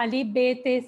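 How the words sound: The letter names end in an 'e' vowel. This is how Urdu speakers read the letters. The speaker calls it wrong. "Urdu की तरह"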